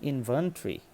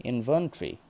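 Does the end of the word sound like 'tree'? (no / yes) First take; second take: yes; yes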